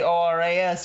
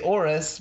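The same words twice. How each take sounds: First: It is spelled out letter by letter. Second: It is read aloud as one word. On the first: The speaker calls it wrong. "you don't say ORAS" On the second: The speaker calls it right. "you say ORAS, because it's a thing you can say"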